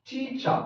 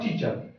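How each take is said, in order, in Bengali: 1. শব্দটি একটি খোলা 'আ' ধ্বনি দিয়ে শেষ হয়। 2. শব্দটি একটি উচ্চারিত 'r' ধ্বনি দিয়ে শেষ হয়। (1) "শব্দের লাস্টে যদি আর বা আই থাকে তখন সাউন্ড করবে আ এর মতো" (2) "not teacher"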